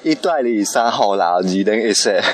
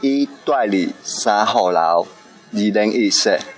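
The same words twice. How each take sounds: First: It is said at normal speed. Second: It is said slowly.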